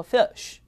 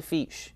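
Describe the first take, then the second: First: Fish as fi-uh-sh, pitched high; correct pronunciation. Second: Fish with a tight "ee", like feesh; wrong pronunciation. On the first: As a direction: say fish with a schwa glide. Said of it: "它叫做fish". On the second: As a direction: say fish with no schwa. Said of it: "不是fish". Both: Shown as a demonstration.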